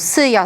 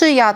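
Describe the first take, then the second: First: The word begins with a plain 's' sound. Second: The word begins with an 'sh' sound. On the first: The speaker comes from the countryside. "wymowa typu syja" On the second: This is the standard language form. "zamiast szyja"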